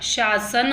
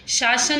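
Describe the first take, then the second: First: शासन slowly, with "sh" then "s"; correct sibilant. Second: शासन as the rejected form; wrong sibilant. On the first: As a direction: say शासन as "shaa-san", drawn out. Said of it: "शासन होता है". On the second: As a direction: give शासन as the faulty example. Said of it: "शासन नहीं होता". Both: Shown as a demonstration.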